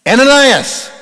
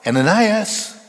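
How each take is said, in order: First: Much higher, much louder divine call; booming call of God. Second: Higher, louder call of the name. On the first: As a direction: boom the name like God from heaven. God calling the name again. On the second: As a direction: call out across a distance. God calling out his name. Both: Acted.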